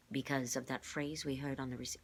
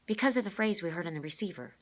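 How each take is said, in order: First: Said in the usual way. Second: Put-on higher, louder boy voice; Rainey's voice. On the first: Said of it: "oh, wrong voice, class". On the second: Shown as a demonstration. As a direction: redo it as the boy. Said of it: "wrong voice, class".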